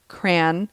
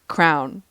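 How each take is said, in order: First: It is one syllable rhyming with man. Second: It is one syllable rhyming with town. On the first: "some people say cran, As in cranberry" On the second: "or crown"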